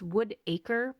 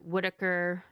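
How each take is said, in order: First: The word is said carefully with its syllables clear. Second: The word is run together quickly, sounding like Whitaker. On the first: The speaker calls it right. "It's Woodacre" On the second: The speaker calls it wrong. "when I say it fast, it sounds like Whitaker"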